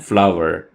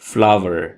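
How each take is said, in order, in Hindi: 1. यह शब्द बिल्कुल 'flower' जैसा सुनाई देता है। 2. यह शब्द बिल्कुल 'flower' जैसा सुनाई देता है।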